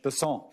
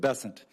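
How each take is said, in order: First: The name is pronounced the French way. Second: The name is pronounced without French flavor. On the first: It is how people in South Louisiana say it. "with a French Besant" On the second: It is how people in South Carolina say it. "as opposed to Besant"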